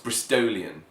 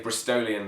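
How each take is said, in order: First: The O vowel is lengthened and emphasised. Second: The O vowel is short and unemphasised. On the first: "they somehow emphasise the O a lot more" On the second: "we say Bristolian the same way"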